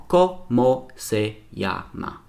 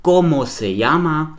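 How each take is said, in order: First: "Como se llama" split Co-mo-se-lla-ma, slowly; slow, evenly separated syllables in "Como se llama". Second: Said in the usual way. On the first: Shown as a demonstration. Teacher showing optimal Spanish syllables, split slowly syllable by syllable. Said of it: "besteht nur aus optimalen Silben". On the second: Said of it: "An einem Beispiel kann ich das zeigen".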